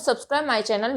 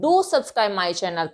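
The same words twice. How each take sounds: First: Said in the usual way. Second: Slow, "Do" stressed; emphatic do. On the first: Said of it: "ऐसा भी कह सकती हूँ". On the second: Shown as a demonstration. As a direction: coax viewers firmly. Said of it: "लेकिन मैं क्या कहती हूँ".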